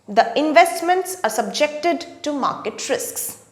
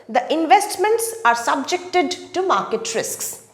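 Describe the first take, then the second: Both takes have the same delivery.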